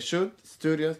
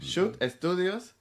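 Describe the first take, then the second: First: The second word starts with an s sound. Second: The second word starts with an e vowel. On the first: This is how others wrongly say the name. The speaker calls it wrong. "because people say Shoot Studios. No" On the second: This is the name as it is meant. The speaker calls it right. "with an E in Spanish"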